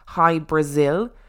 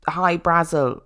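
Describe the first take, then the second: First: The second word sounds like 'Brazil'. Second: The second word sounds like 'Brazel'. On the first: The speaker calls it wrong. "they pronounce it as High Brazil, which it is unlikely to have been" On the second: The speaker calls it right. "people confuse High Brazel"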